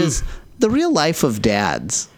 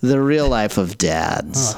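First: It is said in a high voice. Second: It is said in a deep voice.

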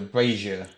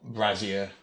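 First: The z sound in the word is soft. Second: The z sound in the word is strong. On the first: The speaker calls it right. "There's a slight z in there rather than the strong z sound" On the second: The speaker calls it wrong. "not brazier, which is something else entirely"

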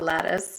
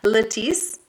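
First: The word is said with a plain pronunciation. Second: The word is said with a fancy pronunciation. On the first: The speaker calls it wrong. "not lattice" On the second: The speaker calls it right. "It just sounds more fancy when you say it that way"

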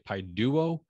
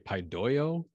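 First: The vowel after the d sounds like oo. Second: The vowel after the d sounds like oi. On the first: This is how most people elsewhere pronounce it. "where the rest of the world would say paiduo" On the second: This is how their own school pronounces it. "when you put the E and the U together, it makes an oi sound"

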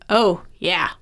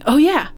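First: It sounds flat and sarcastic, like mock agreement. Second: It sounds sincere, like a sudden realization.

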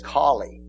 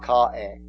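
First: The name is said clearly, with every consonant. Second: The name is slurred, with the middle consonant dropped. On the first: The speaker calls it right. "It's Collie" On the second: The speaker calls it wrong. "He couldn't even talk. He was so messed up"

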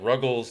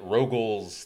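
First: The first vowel sounds like 'uh'. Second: The first vowel sounds like 'oh'. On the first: "They get Ruggles" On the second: "they get Rogals"

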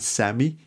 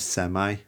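First: The word is said the British way. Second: The word is said the American way. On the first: The speaker calls it right. "instead of saying semi" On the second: The speaker calls it wrong. "it goes semi"

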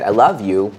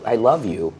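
First: It is said in an angry tone. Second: It is said in a warm, calm tone. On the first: "but I can say it with anger" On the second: "I can say to you"

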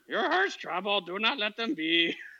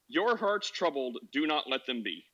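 First: It is read in a Yoda impression. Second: It is read in a normal voice.

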